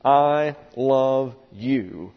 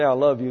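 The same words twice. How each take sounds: First: Very slow, drawn out, every word weighed, stress on I; slow illustrative I love you. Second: Quick natural I love you with a falling close, stress on love; quick personal I love you. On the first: Preacher illustrating a sentence to the congregation, slow drawn-out delivery. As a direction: lay out I love you slowly as a teaching example. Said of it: "can be illustrated by the sentence". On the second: Preacher voicing a young man's personal love, quick and offhand. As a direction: toss off I love you the way a suitor says it. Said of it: "And when I say".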